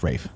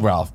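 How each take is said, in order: First: The name is said without an L, Rafe. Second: The name is said with an L sound, Ralph. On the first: This is how the name is actually said. The speaker calls it right. "but it's pronounced Rafe" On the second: This is how the name is written. The speaker calls it wrong. "It's spelled Ralph"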